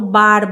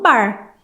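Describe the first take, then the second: First: The R has the speaker's usual Curitiba sound. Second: The R has the drawn-out caipira sound. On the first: This is how the speaker personally says it. "eu falo bar" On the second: This is how people from the interior say it. "lá da minha região eles falam bar"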